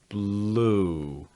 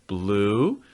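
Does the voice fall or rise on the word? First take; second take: fall; rise. First: The pitch falls from high to low. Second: The pitch rises from low to high. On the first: The speaker calls it right. "The last word of that sentence is going to have a falling intonation" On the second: The speaker calls it wrong. "that's going to be more rising and not quite what you need"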